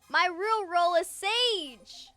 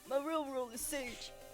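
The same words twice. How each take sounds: First: It is said in a normal voice. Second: It is said in a deep manly voice.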